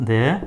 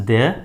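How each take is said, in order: No difference in how they are said.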